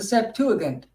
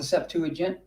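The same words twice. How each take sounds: First: The g is pronounced hard, as in go. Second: The g is pronounced soft, like j.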